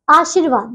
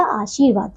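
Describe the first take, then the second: First: आशीर्वाद with a short i, "aa-shir-vaad"; mispronounced आशीर्वाद. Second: Said in the usual way. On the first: Shown as a demonstration. Teacher reads pupils the misspelling, short "shi" in आशीर्वाद. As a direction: clip the second vowel of आशीर्वाद short. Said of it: "ये है अशुद्ध और ये है शुद्ध". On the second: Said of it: "तो ये हो जाएगा आशीर्वाद".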